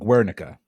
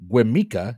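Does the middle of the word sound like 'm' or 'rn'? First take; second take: rn; m. First: The middle is said with an rn sound. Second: The middle is said with an m sound. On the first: The speaker calls it right. "It is 100% Guernica" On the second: The speaker calls it wrong. "I'm going to mispronounce the name of this"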